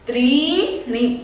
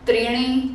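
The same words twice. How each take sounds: First: The vowel after 'tr' is drawn out long. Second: The vowel after 'tr' is short. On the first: The speaker calls it right. "त्र में ई की मात्रा दीर्घ है, थोड़ा लंबा खींचो" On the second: The speaker calls it wrong. "इस तरह से नहीं बोलना है"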